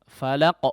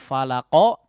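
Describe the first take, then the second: First: The final Q ends cleanly with no vowel. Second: The final Q is followed by an added vowel. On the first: The speaker calls it right. "falaq murni menjadi apa? Sukun" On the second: The speaker calls it wrong. "Tidak falaqo, tidak condong"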